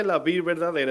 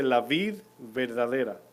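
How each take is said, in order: First: "La vid verdadera" pushed out louder, stress on "La"; preacher driving the point home; emphasized quote. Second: "La vid verdadera" read slowly and evenly; quoting the Lord slowly; slow quote. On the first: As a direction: hit "La vid verdadera" hard, leaning on "La". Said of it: "Si el Señor dice". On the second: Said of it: "no sé si notaron que el Señor dice". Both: Shown as a demonstration.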